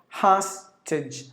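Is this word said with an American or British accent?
American. The first vowel is said with an American accent.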